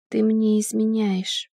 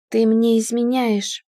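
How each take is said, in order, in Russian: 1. Сказано тихо, плоским, безжизненным голосом. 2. Сказано громко, четко и зло. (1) "тихим, обезжизненным голосом" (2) "повторила громче, четче, увереннее и злее"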